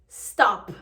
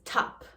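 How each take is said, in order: First: The word begins with an 'st' sound. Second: The word begins with a plain 't' sound. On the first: "the S T at the beginning" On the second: "becomes T"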